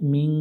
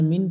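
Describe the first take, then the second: First: The n is hidden in a nasal sound. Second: The n is pronounced fully and clearly. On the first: The speaker calls it right. "নুনটাকে বাংলায় গোপন করে অনেক স্বরের মতো উচ্চারণ করতে হবে" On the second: The speaker calls it wrong. "মিন পড়া যাবে না"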